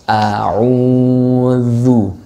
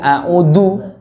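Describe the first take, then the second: First: The middle consonant is a voiced th-like sound. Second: The middle consonant is a plain d sound. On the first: The speaker calls it right. "ujung lidah bertemu dengan ujung gigi seri atas" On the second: The speaker calls it wrong. "nggak boleh a'udu, du. Nah, itu dari jadinya huruf dal"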